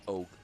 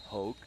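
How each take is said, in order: First: The word starts with a vowel, no H sound. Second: The word starts with an audible H sound. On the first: "his name in French is is is it's almost it's Oak" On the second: "Whereas in English"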